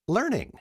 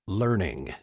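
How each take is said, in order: First: It is said in a relaxed, casual tone. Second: It is said in a firm, commanding tone.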